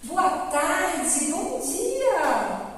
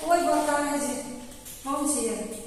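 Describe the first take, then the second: First: The greeting sounds warm and cheerful. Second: The greeting sounds dull and unenthusiastic.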